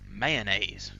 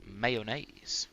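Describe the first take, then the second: First: The word is said in a regional pronunciation. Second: The word is said in a general pronunciation.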